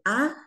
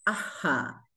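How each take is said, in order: First: The vowel ends in breath without an echo. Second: The breath is followed by an echoed vowel.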